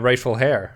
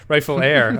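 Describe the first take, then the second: First: The word heir starts with an h sound. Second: The word heir starts with a vowel sound. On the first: The speaker calls it wrong. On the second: The speaker calls it right.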